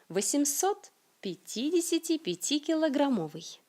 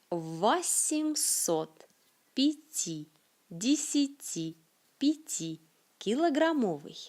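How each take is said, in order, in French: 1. La phrase est prononcée rapidement et couramment. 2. La phrase est prononcée lentement et avec soin. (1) "Et comment dirait un natif?"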